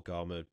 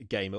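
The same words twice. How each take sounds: First: Gama said GAH-muh, with long 'ah'; one of two pronunciations. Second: Gamer said GAY-muh, with long 'ay'; one of two pronunciations. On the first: Podcaster offering either reading of a site name, Gama with 'ah'. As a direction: give Gama an open 'ah' first syllable. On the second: Podcaster offering either reading of a site name, Gamer with 'ay'. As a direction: give Gamer an 'ay' first syllable. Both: Shown as a demonstration. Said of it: "that's why I say Gama".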